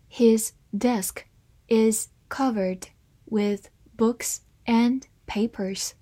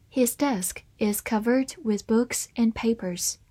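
First: Slow, deliberate sentence reading. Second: Said in the usual way. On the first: Shown as a demonstration. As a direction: read it slowly for learners. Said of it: "好，慢慢来读". (慢慢朗读) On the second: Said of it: "慢慢来读".

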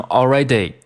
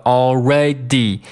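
First: "already" mispronounced ending in day; wrong ending. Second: "already" ending in dee; slow "already" with a long ee at the end; correct ending. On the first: Retold or imitated. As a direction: imitate learners saying "already" as all-ray-day. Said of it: "很多同学会把它读成already". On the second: Shown as a demonstration. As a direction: finish "already" on dee, clearly. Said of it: "是一个D".

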